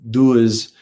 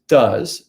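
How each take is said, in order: First: The vowel differs from the vowel in 'was'. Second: The vowel matches the vowel in 'was'. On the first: The speaker calls it wrong. "some people want to say does um, or something like that" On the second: The speaker calls it right. "and it's does. It's just like the word was"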